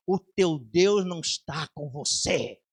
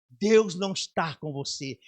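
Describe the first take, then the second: First: Slow, low demon voice with an otherworldly edge; lightly voiced mocking demon; demon's taunt. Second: Said in the usual way. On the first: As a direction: sneer it slowly like a demon. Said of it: "esse demônio falou assim". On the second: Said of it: "e ele falou assim".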